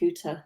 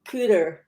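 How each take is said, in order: First: It is said in Tracy's accent, t crisp. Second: It is said in the hosts' accent, t softened.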